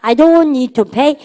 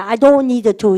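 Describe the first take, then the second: First: Very slow, words drawn out, a bit louder; slow drill. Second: Said in the usual way. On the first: Shown as a demonstration. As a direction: stretch it out for repetition. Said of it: "시작". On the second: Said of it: "이걸로 해보세요".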